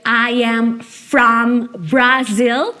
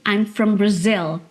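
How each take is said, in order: First: Every word is full, with a clear vowel in 'from'. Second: It is contracted, with a schwa in 'from'. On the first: The speaker calls it wrong. "em vez de você dizer I am from Brazil" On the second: The speaker calls it right. "o mais natural seria I'm from Brazil"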